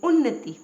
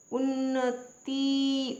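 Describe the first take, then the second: First: उन्नति quick, loud, short final ti; correct quick pronunciation. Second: उन्नति very slow and high, long tee; wrong pronunciation. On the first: Teacher correcting learners, उन्नति said quickly with short ti. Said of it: "जल्दी से हम बोलते हैं". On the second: Teacher showing a misspelling, उन्नति stretched to a long tee. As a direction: drag out उन्नति to un-na-teee. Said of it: "उन्नति नहीं होती". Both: Shown as a demonstration.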